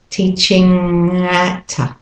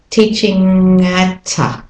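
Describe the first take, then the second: Both takes have the same delivery.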